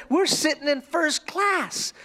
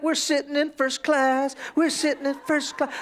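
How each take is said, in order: First: Slow, high, proud announcement; excited little girl. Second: Sung, imitating a child's singsong; sung, little song. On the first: Retold or imitated. Little girl telling a fellow passenger, excited. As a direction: imitate a thrilled small child. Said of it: "she's so excited". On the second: Little girl singing about first class, singsong. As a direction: chant it like a gleeful little kid. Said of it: "started doing a little song again".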